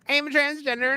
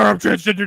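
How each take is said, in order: First: It is said in a put-on character voice. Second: It is said in a deep, manly voice. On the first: "in the Mercedes Monet voice" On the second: "I'm incapable of of not sounding like an actual man"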